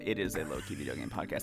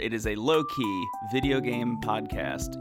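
First: It is said with low energy. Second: It is said with high energy.

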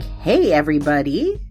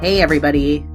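First: It is said higher-pitched and cheerful. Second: It is said low-pitched and somber.

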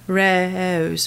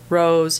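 First: The O vowel starts with an E-like glide. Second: The O vowel is a plain long O. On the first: This is the London way, kept in coastal Southern states. "England, especially London, has the E prefix right before the O" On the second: This is the standard American way. "in the United States, we think of ours as a standard one"

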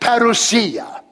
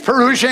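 First: The word is pronounced the Greek way. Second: The word is pronounced the English way. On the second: "English pronunciation"

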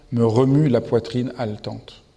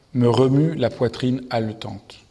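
Both takes have the same delivery.

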